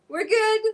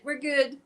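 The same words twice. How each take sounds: First: A high, loud reassurance to the pet; high pet talk. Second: Said in the usual way. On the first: Real, not acted. Reassuring her freed cat in high, louder baby talk.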